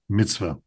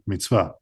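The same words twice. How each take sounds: First: It is said with Ashkenazi Hebrew pronunciation. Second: It is said with Sephardic Hebrew pronunciation.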